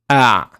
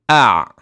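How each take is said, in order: No difference in how they are said.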